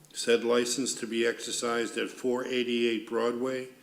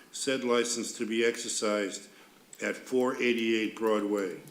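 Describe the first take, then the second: No difference in how they are said.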